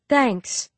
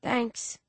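First: Sugary, sarcastic thanks; sweet on top, scornful under; mock sweetness. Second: Softer, creaky little thanks; gulp, then barely voice it. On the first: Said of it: "Biddy says with mock sweetness". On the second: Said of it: "in a soft, creaky voice". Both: A narrator's reading.

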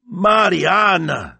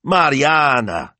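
First: High, loud, drawn-out name; long, soaring exclamation; excited cry. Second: High, loud, stretched-out name; exasperated high-pitched rebuke; scolding. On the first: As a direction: cry out to your sister in amazement. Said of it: "she cried". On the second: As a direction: scold your sister by name. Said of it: "Signor Barbaro scolded". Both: A narrator's reading.

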